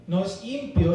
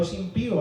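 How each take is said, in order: First: ÍMPIO stressed on its first syllable; mispronounced impío. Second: IMPÍO stressed on the second I; accent on the I. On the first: Preacher correcting churchgoers' word, wrongly stressed first syllable. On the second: Preacher correcting churchgoers' word, stress on the I. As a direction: say im-PÍ-o, leaning on the middle syllable. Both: Shown as a demonstration. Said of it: "es con acento en la I".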